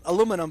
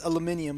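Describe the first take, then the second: First: "aluminum" as a-LOO-mi-num; American pronunciation. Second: "aluminium" as al-yoo-MIN-ee-um; British pronunciation. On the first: Reading out the viewer's misspelling, "aluminum" the American way. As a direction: say "aluminum" without the extra "ee". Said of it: "He misspelled alum-, aluminum". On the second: Correcting the viewer's spelling, "aluminium" the British way. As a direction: quickly say "aluminium" with "ee" before "um". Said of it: "he was trying to say". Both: Shown as a demonstration.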